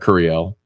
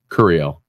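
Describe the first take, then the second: First: The stress is on the last syllable. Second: The stress is on the first syllable. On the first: "not the L" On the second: "I put the emphasis on the on the cur"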